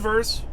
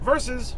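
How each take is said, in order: First: The word is said as one syllable. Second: The word is said as two syllables. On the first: The speaker calls it wrong. "not verse" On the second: The speaker calls it right.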